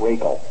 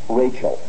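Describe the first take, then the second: First: The ch is pronounced hard, as a k. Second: The ch is pronounced soft, as in church. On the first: The speaker calls it wrong. "It's not Rachel" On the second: The speaker calls it right. "There, the CH is soft"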